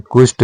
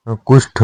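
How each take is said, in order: First: कुष्ठ with unaspirated t; incorrect form. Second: कुष्ठ with aspirated th; correct form. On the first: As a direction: say कुष्ठ as "kusht". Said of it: "नहीं होता". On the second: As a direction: puff the final ठ of कुष्ठ. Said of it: "होता है". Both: Shown as a demonstration.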